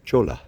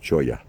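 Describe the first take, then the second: First: The double L is sounded as an L. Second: The double L is sounded as a Y.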